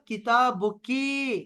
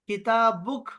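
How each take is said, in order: First: The word ends with a final vowel sound. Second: The word ends on a silent consonant stop. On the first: It addresses a woman. "लड़की अगर सामने हो ना" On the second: The ending is paused, so gender is not shown. "इसको साइलेंट रखा करें, ... वक़्फ़ दिया करें"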